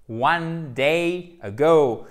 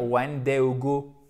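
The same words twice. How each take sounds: First: "One day ago" slow and loud, long glides on "day" and "ago"; correct English diphthongs. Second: "one day ago" with short pure French vowels; wrong French pronunciation. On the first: Teacher modelling for learners, "One day ago" with exaggerated English glides. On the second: Teacher showing learners what to avoid, "one day ago" in French vowels. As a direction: say "one day ago" without any diphthong glides. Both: Shown as a demonstration. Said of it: "ça évite de dire".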